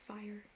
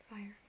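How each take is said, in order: No difference in how they are said.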